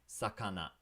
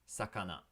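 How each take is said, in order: No difference in how they are said.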